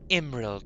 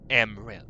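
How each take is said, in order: First: The name begins with an 'ih' vowel. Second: The name begins with an 'eh' vowel. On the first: The speaker calls it right. "It's spelled with an I" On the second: The speaker calls it wrong. "not Emril"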